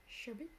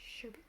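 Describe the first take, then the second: Both takes have the same delivery.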